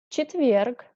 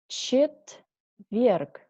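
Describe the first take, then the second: First: The word is said fast. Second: The word is said slowly. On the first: Said as a native speaker normally would. "second time I read faster, like a normal native speaker" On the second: Said carefully, as a teacher would. "First time I read slowly"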